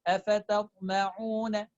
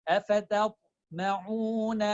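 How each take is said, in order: No difference in how they are said.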